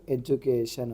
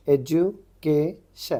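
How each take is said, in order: First: Said in the usual way. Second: education very slowly, syllable by syllable; broken into syllables. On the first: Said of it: "तो इसका answer क्या आ गया". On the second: Shown as a demonstration. Teacher reads out a transcription, education syllable by syllable. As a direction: sound out education in separate parts, ending in शन. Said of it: "एस एन आ गया तो उसको शन बोलते".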